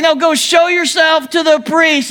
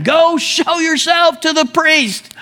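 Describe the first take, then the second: First: High, insistent shout leaning on show; Jesus correcting the confused lepers with an insistent shout; firmer repeat shout. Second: High, slow call carried over distance; Jesus calling back to the lepers, slow high call; retold yell. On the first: Retold or imitated. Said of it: "He's like". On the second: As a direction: call it slowly across the field. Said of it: "He yells back at him".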